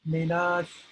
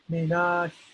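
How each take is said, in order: No difference in how they are said.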